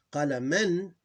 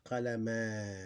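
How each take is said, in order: First: "qalaman" higher, louder, ending in -an; tanween ending. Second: "qalama" slow, final a drawn out; alif kept. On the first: Teacher reading the form with alif, tanween pronounced. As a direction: say "qalaman" with the n sounded. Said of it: "which means sukoon ending". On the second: Teacher showing the pause keeps alif, long final a. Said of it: "We don't throw away the alif". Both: Shown as a demonstration.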